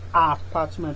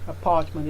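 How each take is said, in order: First: The first vowel is said with a wide-open mouth. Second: The first vowel is a short, weak schwa. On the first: The speaker calls it wrong. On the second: The speaker calls it right.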